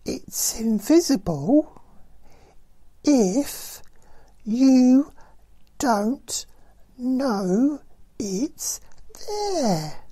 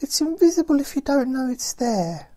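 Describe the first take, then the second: First: The sentence is spoken very slowly. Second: The sentence is spoken at a normal pace.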